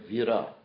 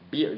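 First: The word begins with a V sound. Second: The word begins with a B sound. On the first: "Sanskrit word vira" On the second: "the Sanskrit V like a B, that's a Bengali pronunciation"

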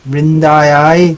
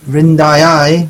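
Both takes have the same delivery.

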